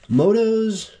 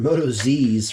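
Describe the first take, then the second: First: The name ends with a 'toes' sound. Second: The name ends with a 'zees' sound. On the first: "I've been pronouncing this Motos" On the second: "or Moto Z's for the longest time"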